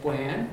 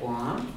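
First: The vowel is forward and high with a bigger glide. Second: The vowel is further back with a smaller glide. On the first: This is how speakers of another dialect say it. "it's very forward and it's very high. So they're going to say" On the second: This is how the speaker's own dialect says it. "I would say"

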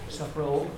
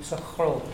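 Both takes have the same delivery.

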